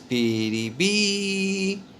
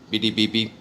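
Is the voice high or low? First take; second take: high; low. First: It is said in a high voice. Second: It is said in a low, deep voice. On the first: "But he says it this way" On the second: "That's pretty baby in a low tone"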